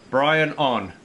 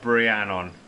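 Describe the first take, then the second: First: It is split into two separate words. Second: It is run together as one word. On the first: The speaker calls it right. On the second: The speaker calls it wrong. "not Brianon"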